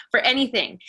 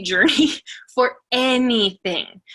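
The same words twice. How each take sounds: First: Said in the usual way. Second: Laughing through the word journey, slowed. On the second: Real, not acted. Speaker to team, laughing about her slow journey. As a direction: chuckle it out slowly with feeling.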